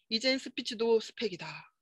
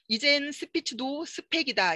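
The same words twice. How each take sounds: First: The sentence ending fades away and is barely heard. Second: The sentence ending stays clear and audible. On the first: The speaker calls it wrong. "끝이 흐지부지 해지고 끝이 잘 안 들리는 거예요" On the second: The speaker calls it right. "이렇게 말하지만"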